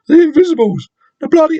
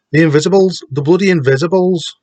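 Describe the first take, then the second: First: High, loud put-on voice; pitched way up, off-target northern voice; attempted Wigan accent. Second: Attempted Wigan accent, pitched up; higher, badly faked Wigan voice; terrible Wigan accent. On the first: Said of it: "that's not how we talk". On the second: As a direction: have a second, clumsy go at a Wigan accent. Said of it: "What's a Wigan accent?".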